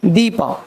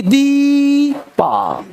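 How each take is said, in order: First: दीपा with a naturally long ee; slightly long vowel. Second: दीपा with a hugely drawn-out deee; over-long vowel. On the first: Teacher corrects the exaggeration, दीपा with modest lengthening. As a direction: lengthen दीपा only a little. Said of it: "automatic sound में थोड़ा variation होगा". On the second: Teacher shows class what long doesn't mean, दीपा overstretched. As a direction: stretch the ee of दीपा far too long. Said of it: "ऐसे नहीं". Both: Shown as a demonstration.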